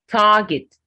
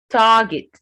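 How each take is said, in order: No difference in how they are said.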